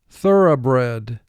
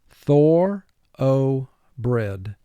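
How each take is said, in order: First: The word is said in its everyday, natural form. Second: Each syllable is said separately in a careful form.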